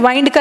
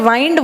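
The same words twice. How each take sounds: The two takes are said the same way.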